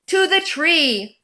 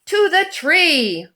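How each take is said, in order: Both takes have the same delivery.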